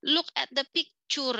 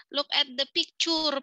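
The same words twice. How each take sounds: First: Picture with a clear "pik-cher" stress on the first syllable; correct English. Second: Picture said wrongly, like "pikchur" with a flat local vowel; mispronounced English. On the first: Shown as a demonstration. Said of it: "Harusnya kan picture gitu ya". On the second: Retold or imitated. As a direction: imitate the teacher who mispronounces picture. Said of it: "Gurunya salah, mispronouncing".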